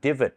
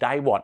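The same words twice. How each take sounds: First: It is pronounced the English way. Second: It is pronounced letter by letter, Thai style. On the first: "ในภาษาอังกฤษเขาออกเสียงว่า" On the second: "เพราะเราไปออกเสียงจากการอ่าน"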